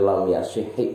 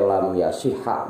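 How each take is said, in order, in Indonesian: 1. Kata kerjanya diakhiri dengan vokal i. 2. Kata kerjanya diakhiri dengan vokal a. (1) "lam yasihhi boleh" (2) "lam yasihha boleh"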